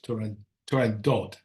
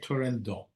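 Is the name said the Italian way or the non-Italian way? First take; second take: non-Italian; Italian. First: The name is pronounced the non-Italian way. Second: The name is pronounced the Italian way. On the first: "Otherwise, it's Turandot" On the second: "if you're Italian, you say Turandot"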